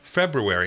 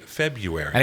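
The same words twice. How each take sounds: First: There is an 'r' sound after the b. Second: There is no 'r' sound after the b. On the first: "I've always said February" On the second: "ninety-nine percent of the people you ask will say"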